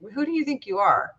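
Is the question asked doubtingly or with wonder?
doubtingly. It is asked in a doubting, challenging tone.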